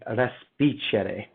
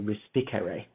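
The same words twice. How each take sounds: First: It is said with an Italian accent. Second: It is said with an English accent.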